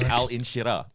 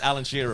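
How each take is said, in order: First: It is said slowly, as separate parts. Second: It is said quickly, run together.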